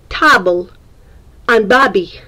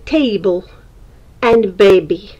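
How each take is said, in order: First: The words are said with a foreign-sounding pronunciation. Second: The words are said with a native-like pronunciation. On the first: This is how the words came out earlier. "I used to say table and baby" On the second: This is how the words come out now. "Now I can say table and baby"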